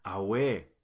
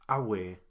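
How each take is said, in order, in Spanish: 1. El acento está en la segunda sílaba. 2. El acento está en la primera sílaba. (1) "no se pronuncia Awe, porque así significa otra cosa" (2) "el acento va en la primera letra"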